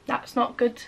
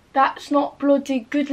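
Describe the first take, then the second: First: Said in the usual way. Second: Put-on drawn-out comic British accent; slow it down, put on an accent for bloody; mock accent. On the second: Putting on a jokey accent over her phone battery. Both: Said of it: "Why do I keep doing accents?".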